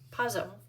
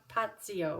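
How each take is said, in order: First: The middle consonant is a plain z sound. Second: The middle consonant has a t, like ts. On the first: "in my American world, I say Pazzo" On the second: "or something like that with a T"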